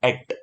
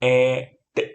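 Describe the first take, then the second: First: The two sounds are blended into one. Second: The two sounds are said separately.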